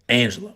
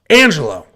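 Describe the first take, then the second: First: It is said in a put-on deep voice. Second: It is said in a normal speaking voice.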